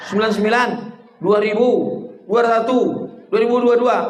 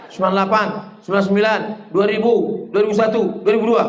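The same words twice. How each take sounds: First: Said in the usual way. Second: Rattled-off recount. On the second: Shown as a demonstration. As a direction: recount "dua ribu dua" rapidly at the end. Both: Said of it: "Du-, eh, dua ribu dua pula".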